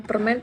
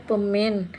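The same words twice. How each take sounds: First: Said in the usual way. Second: Pemen without the r, as a habit; dropped r. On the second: Shown as a demonstration. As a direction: say pemen, swallowing the r of permen. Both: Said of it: "Kebiasaan kalau bilang permen".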